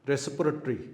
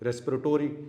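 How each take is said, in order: First: It is said in a non-American way. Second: It is said in a North American way.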